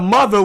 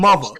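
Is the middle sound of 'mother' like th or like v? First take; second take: th; v. First: The middle sound is a normal th. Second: The middle sound is said like a v. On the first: "instead of mother" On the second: "we put M U V A"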